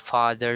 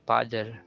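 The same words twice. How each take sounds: First: It begins with an F sound. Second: It begins with a P sound.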